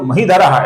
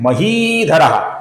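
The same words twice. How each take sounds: First: The second syllable has a short vowel. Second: The second syllable has a long vowel. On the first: The speaker calls it wrong. "ऐसा गलत उच्चारण करते हैं" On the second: The speaker calls it right. "ये ही दीर्घ है"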